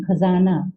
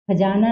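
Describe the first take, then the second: First: "खजाना" said with a clear z, as khazaana; "खजाना" with nukta z sound; correct nukta pronunciation. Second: "खजाना" said with a j, as khajaana; "खजाना" mispronounced with j; wrong pronunciation without nukta. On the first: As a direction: give "खजाना" the z of zoo. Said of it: "खजाना नहीं". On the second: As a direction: deliberately say "खजाना" with j instead of z. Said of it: "नहीं". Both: Shown as a demonstration.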